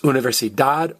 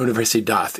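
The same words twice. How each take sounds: First: The final consonant is a hard d sound. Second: The final consonant is a soft th sound.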